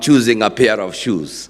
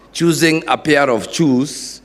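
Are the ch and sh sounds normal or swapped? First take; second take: normal; swapped. First: The ch and sh sounds are normal. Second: The ch and sh sounds are swapped. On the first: The speaker calls it right. "instead of saying I'm choosing a pair of shoes" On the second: The speaker calls it wrong. "I was saying that I am choosing a pair of shoes"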